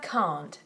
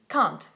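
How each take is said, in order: First: The vowel is long and drawn out. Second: The vowel is short and clipped. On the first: The speaker calls it right. "it's a long vowel, very importantly so" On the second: The speaker calls it wrong. "If you make it short"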